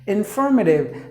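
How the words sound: It is said in an American accent.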